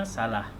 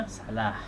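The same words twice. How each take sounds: No difference in how they are said.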